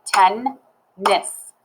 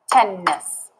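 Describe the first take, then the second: First: "Tennis" as ten, pause, nis; "Tennis" with its syllables pulled apart; clapped syllables. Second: "tennis" as one word with a lingering n; "tennis" with its two beats close together; syllables joined up. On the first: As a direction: break "Tennis" into two slow beats. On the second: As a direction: blend "tennis", still hinting at ten and nis. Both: Shown as a demonstration. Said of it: "if I clap it".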